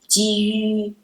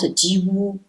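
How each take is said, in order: First: The vowel is a front rounded ü sound. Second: The vowel is a plain back u sound. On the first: The speaker calls it right. "it's Jiyu" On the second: The speaker calls it wrong. "it's not Jiwu"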